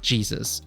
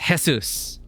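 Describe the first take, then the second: First: The name begins with a J sound. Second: The name begins with an H sound. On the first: "not Jesus" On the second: "for me it's Jesus. ... J is H for us"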